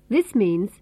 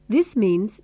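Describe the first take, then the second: The two takes are said the same way.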